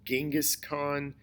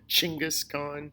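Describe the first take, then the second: First: The name begins with a G sound. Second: The name begins with a CH sound. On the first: This is the familiar English pronunciation. The speaker calls it wrong. "instead of Genghis Khan" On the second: This is closer to the original pronunciation. The speaker calls it right. "Not a G sound, but more of a C H sound"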